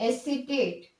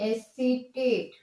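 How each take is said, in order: No difference in how they are said.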